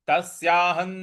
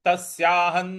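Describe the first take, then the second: Both takes have the same delivery.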